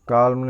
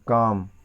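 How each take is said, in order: First: The L sound is pronounced before the m. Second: The L sound is silent before the m. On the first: The speaker calls it wrong. "काल्म नहीं" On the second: The speaker calls it right. "नहीं काम"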